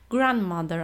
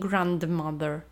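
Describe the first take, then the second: First: The d sound is not pronounced. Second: The d sound is pronounced. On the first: The speaker calls it right. "babcia, grandmother" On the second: The speaker calls it wrong. "a nie grandmother"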